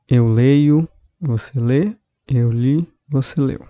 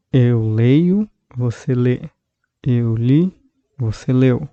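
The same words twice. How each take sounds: The two takes are said the same way.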